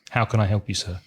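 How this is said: The voice stays flat with little pitch movement. It sounds less polite. The speaker calls it wrong. "That's very flat"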